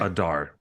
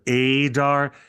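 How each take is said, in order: First: The vowel is said with a soft sound. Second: The vowel is said hard, not soft. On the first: "a soft vowel sound of Adar" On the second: "Instead of Adar"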